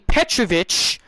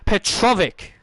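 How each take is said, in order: First: The name ends with a ch sound. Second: The name ends with a hard k sound. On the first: The speaker calls it wrong. "when I hear them say Petrovich" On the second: The speaker calls it right. "I say Petrovic"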